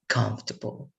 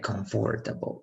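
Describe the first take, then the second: First: The stress falls on the first syllable. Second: The stress falls on a later syllable. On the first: The speaker calls it right. "The stress is going to be in the very first part" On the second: The speaker calls it wrong. "we are reading that with the basis that we have in Spanish"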